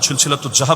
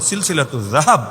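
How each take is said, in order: First: The title is said with a loose Bengali-style pronunciation. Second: The title is said with careful Arabic-style pronunciation. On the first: It copies the opponent's careless pronunciation. The speaker calls it wrong. "আপনার মতো জাহাব না" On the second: It shows the proper scholarly pronunciation. The speaker calls it right. "এটা তো উচ্চারণটাও শুদ্ধ করে করা যায়"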